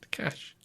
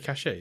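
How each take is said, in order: First: The word is said with one syllable. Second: The word is said with two syllables. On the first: The speaker calls it right. "It's just cash" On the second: The speaker calls it wrong. "You say cachet"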